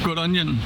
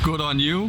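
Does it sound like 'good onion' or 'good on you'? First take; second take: good onion; good on you. First: The words run together like 'good onion'. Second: The words are said separately as 'good on you'. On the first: "I always just says good, onion" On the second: "I think it's like pronounced good on you"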